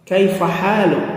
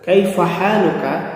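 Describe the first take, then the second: First: The final vowel is dropped, ending on k. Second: The final vowel a is fully pronounced.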